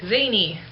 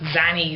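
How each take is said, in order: First: The first vowel is long, as in 'cane'. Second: The first vowel is short, as in 'can'. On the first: The speaker calls it right. "someone's like" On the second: The speaker calls it wrong. "I always thought it was Zanny"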